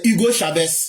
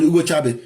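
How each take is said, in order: First: The name is pronounced the French way. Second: The name is pronounced the Spanish way.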